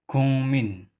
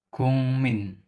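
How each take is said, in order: The two takes are said the same way.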